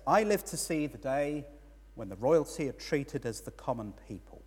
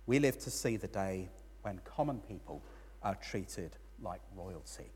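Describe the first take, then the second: First: Slightly miffed, a bit raised; a little put out. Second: Calm, softer correction fading very quiet; calm reply. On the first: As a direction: grumble it like an envious onlooker. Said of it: "a little bit put out". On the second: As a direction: answer gently, letting it settle. Friend answers with a gentle correction. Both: Retold or imitated.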